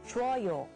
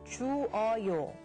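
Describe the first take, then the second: First: The vowels merge, giving two syllables. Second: The vowels stay separate, giving three syllables. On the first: "this can be contracted to" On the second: "You would think that we can add oyo"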